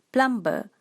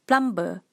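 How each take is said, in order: First: It is said with a Malaysian-style pronunciation. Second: It is said with a Malaysian-style pronunciation.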